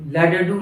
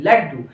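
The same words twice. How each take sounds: First: लड्डू with first ड as a full syllable; split double consonant. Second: Said in the usual way. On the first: Shown as a demonstration. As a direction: say लड्डू as "la-da-doo". (लड्डू में पहले ड को पूरा बोलते हुए) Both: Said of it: "लड्डू नहीं".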